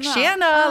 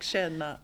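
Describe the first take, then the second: First: The first vowel sounds like the word hey. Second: The first vowel does not sound like hey. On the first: The speaker calls it wrong. "I said like känna, like it sounds like I'm saying hey" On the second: The speaker calls it right. "I mean like känna"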